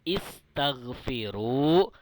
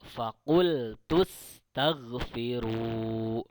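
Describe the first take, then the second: First: The word begins with an audible 'i' vowel. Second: The 'i' vowel drops and the words link. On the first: "hamzah berharokat kasroh kalau berada di awal kata" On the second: "Harokat hamzahnya menjadi hilang"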